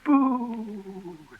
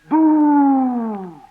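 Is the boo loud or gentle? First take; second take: gentle; loud. First: It is said gently. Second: It is said loudly.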